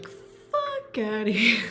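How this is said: It is said in a strong New York accent.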